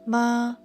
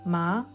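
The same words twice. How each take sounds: First: The pitch stays high and level. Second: The pitch starts lower and rises. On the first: It means mother. "The first tone is high and steady" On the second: It means hemp. "The second tone starts lower and rises upward"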